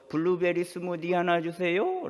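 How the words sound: It is said in a Gyeongsang accent, rising. The speaker is from Gyeongsang. "올리는 사람들은 경상도 출신이다"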